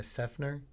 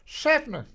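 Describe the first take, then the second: First: Said in the usual way. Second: High, loud redneck shout of the town name; redneck twang. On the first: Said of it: "you can't say it like that". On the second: Shown as a demonstration. Comic showing how Seffner sounds, redneck holler. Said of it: "a very redneck sounding town".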